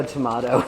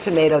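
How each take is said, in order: First: "tomato" said tuh-MAH-toh. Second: "tomato" said tuh-MAY-toh. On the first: Reading a viewer's joke, tomato as tuh-MAH-toh. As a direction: middle vowel of "tomato" as in father. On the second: Reading a viewer's joke, tomato as tuh-MAY-toh. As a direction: middle vowel of "tomato" as in may. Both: Shown as a demonstration. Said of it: "Someone says tomato, tomato".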